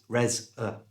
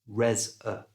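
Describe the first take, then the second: First: The second syllable has a weak 'uh' vowel. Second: The same.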